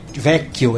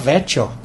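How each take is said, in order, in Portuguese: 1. A consoante do meio é um 'k' longo e forte. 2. A consoante do meio é um som de 'ch'. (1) "Ele não falava ve, vecchio" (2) "ele falava vecchio"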